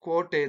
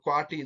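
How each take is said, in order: First: The first vowel is a plain long o. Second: The first vowel becomes wa, ending in i. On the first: This is the Mysore-region form. "ಕೋಟೆ ಅಂತ ಕರಿತೀವಿ" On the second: This is the Dharwad-region form. "ಅವರು ಕ್ವಾಟಿ ಅಂತ ಕರಿತಾ ಹೋಗ್ತಾರೆ"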